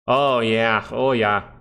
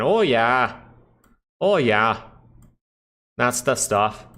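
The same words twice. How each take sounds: First: A hint of Canadian, drawn-out oh yeah; lightly Canadian "Oh, yeah" with a ringing "Oh"; light Canadian accent. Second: Put-on Canadian accent, "Oh" stretched and leaned on; hammed-up Canadian accent. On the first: Streamer answering chat with a touch of Canadian accent. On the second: Streamer hamming a Canadian accent for chat. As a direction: play up the Canadian "Oh, yeah". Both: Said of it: "Why do I sound like a Canadian?".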